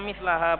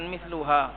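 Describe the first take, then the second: First: The vowel after the l is a. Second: The vowel after the l is u. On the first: The speaker calls it right. "Yang benar bacanya mislaha" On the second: The speaker calls it wrong. "bukan misluha"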